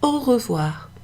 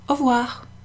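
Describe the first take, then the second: First: It is said in full, at a normal pace. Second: It is said shortened and quicker.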